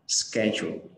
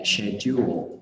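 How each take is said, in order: First: It is said with an American accent. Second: It is said with a British accent. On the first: "cái kiểu Anh Mỹ thì mình sẽ đọc là schedule" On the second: "mình nhớ là anh Anh đọc là schedule"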